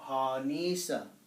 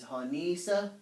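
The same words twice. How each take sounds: First: The vowel is drawn out long. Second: The vowel is short, not drawn out. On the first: Someone else is making something. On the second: One person is making something.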